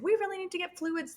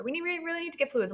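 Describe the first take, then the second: First: Higher, pressing midwife voice; urgent midwife. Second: Faster, higher pressing repeat; more urgent midwife. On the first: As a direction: urge it like the anxious midwife. Midwife urging about fluids. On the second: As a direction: rush it, more insistent. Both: Retold or imitated.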